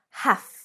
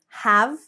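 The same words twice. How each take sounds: First: The word ends with a voiceless F sound. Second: The word ends with a voiced V sound. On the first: "So it's a F, F sound" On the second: "the V, the V, V"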